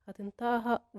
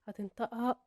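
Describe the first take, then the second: Both takes have the same delivery.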